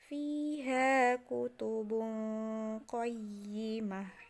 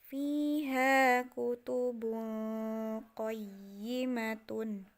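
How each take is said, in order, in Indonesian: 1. Frasa itu berakhir dengan bunyi 'h' yang terhenti. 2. Frasa itu berakhir dengan akhiran 'tun' penuh.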